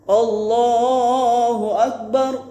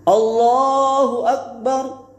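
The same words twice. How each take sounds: Both takes have the same delivery.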